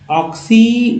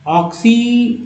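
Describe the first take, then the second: No difference in how they are said.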